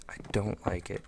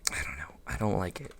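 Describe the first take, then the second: First: Said in the usual way. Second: Breathy whisper, muttered to self; whispered dislike. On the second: Real, not acted. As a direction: whisper it under your breath.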